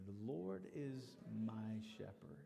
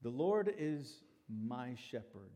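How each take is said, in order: First: Slow, hushed whisper of the line; whispered verse. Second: Said in the usual way. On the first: Shown as a demonstration. Pastor leading the church in the psalm, whispered. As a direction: breathe the words out softly and slowly. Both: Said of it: "Say that with me".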